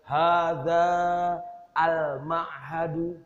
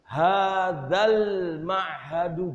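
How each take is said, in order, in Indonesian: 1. Kata pertama tetap terpisah dari 'al' dengan vokal panjang. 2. Kata pertama langsung menyambung ke 'al' dengan vokal pendek. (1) "Jadi dibacanya bukan" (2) "jadi begini dibacanya nanti dalam imla"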